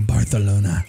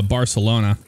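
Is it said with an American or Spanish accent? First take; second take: Spanish; American. First: It is said with a Spanish accent. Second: It is said with an American accent.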